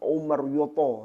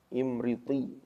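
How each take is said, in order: First: It starts with u and ends in yoto. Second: It starts with i and ends in ti. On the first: The speaker calls it wrong. "lo kan sudah beda" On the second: The speaker calls it right. "Ada kitab namanya Imriti"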